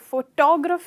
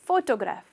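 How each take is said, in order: First: The stress falls on a later syllable. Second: The stress falls on the first syllable. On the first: The speaker calls it wrong. "तो photograph नहीं कहते हो" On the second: The speaker calls it right. "Stress photograph फो पर था"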